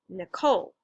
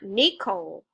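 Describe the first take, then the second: First: The stress is on the second syllable. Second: The stress is on the first syllable. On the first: The speaker calls it right. "So the second syllable there is stressed" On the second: The speaker calls it wrong. "it's not Nicole"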